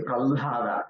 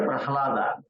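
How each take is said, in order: First: "pralhada" with the l before the h; careful "pralhada", l held, then h released; correct "pralhada". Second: "prahlada" with the h before the l; wrong "prahlada". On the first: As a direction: say "pralhada" as pral-ha-da. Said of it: "it is pralhada". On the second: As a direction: say "prahlada" as prah-la-da. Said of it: "this is not a prahlada". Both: Shown as a demonstration.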